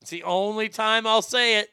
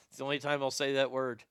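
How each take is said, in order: First: Higher, louder put-on Indian accent; comic Indian accent, pitched up. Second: Said in the usual way. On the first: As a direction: repeat it in a hammed-up Indian accent. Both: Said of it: "when I'm in that accent".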